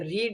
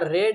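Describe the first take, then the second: First: The vowel is a long ee sound. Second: The vowel is a short e sound. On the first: "ये रीड है जो normal है" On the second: "रेड मतलब लाल वाला रेड पढ़ो"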